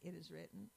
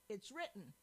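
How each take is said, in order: First: It is said plainly and simply. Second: It is said forcefully and commandingly.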